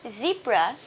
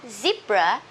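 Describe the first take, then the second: No difference in how they are said.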